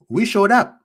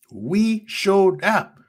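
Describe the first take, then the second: First: Said in the usual way. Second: "We showed up" drawn out very slowly; slow, weighty "We showed up"; slow emphatic repeat. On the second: Real, not acted. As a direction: let each word of "We showed up" land. Fan pride rant, repeated slowly.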